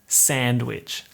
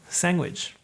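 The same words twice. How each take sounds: First: A full, drawn-out A with no g sound. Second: A shortened A followed by a g sound. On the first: The speaker calls it wrong. "like ugh. The A is so aggressive" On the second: The speaker calls it right. "cuts the A in half, and you get a G in there"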